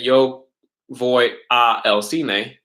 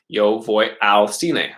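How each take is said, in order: First: 'A' and 'el' are said as two separate words. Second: 'A' and 'el' are merged into one word. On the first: The speaker calls it wrong. "we would never say" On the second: The speaker calls it right. "You would say"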